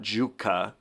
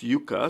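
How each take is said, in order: First: The name begins with a 'j' sound. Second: The name begins with a 'y' sound. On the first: The speaker calls it wrong. "it's not Juka" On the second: The speaker calls it right. "it's Yuka"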